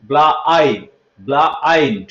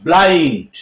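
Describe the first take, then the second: First: ব্লাইন্ড broken as ব্লা, then আইন্ড; lower-pitched teacher breakdown, ব্লা - আইন্ড; 'ai' sound split out. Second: ব্লাইন্ড as one drawn-out word with 'ai'; lower, slow model of ব্লাইন্ড; 'ai' sound demo. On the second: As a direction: say ব্লাইন্ড slowly, unbroken. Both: Shown as a demonstration. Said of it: "আই উচ্চারণ যদি লক্ষ্য করে দেখি".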